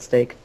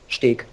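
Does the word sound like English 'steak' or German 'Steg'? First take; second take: English steak; German Steg. First: It sounds like the English word steak. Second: It sounds like the German word Steg. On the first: The speaker calls it right. "statt Steak" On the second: The speaker calls it wrong. "Sagt er immer"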